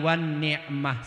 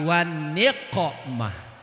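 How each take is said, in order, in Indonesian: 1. Kata terakhir diucapkan dengan bunyi ain. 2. Kata terakhir diucapkan dengan bunyi qaf. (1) "Bacaannya biasanya pakai ain di situ" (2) "bukan ain tapi qaf"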